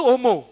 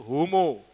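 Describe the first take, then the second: First: HOMO with the H barely sounded, almost "omo"; thin H. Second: HOMO with a clearly sounded H at the start; outside pronunciation, full H. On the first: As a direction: let the H in HOMO nearly vanish. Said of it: "H itu tipis". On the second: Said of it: "Kalau yang di luar itu". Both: Shown as a demonstration.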